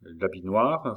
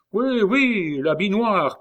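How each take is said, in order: First: Understated stunned echo; stupefied. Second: High, loud, musing exclamation; talking to himself. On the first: André echoes the nickname he just heard, stupefied. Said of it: "stupéfait". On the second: Lambert goes on talking to himself, musing excitedly. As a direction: muse aloud, pitched right up. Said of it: "en se parlant à lui-même". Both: A narrator's reading.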